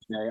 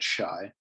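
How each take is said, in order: First: The vowel sounds like the one in day. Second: The vowel sounds like the one in die. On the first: This is how the speaker usually says it. "I always say Shay" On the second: This is how Canadians might say it. "I could see the Canadians pronouncing it Shy"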